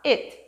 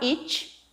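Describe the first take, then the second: First: The final T is short, dry and crisp. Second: The final T has a soft ch-like release. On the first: The speaker calls it right. "bem sequinho" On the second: The speaker calls it wrong. "não vai falar it"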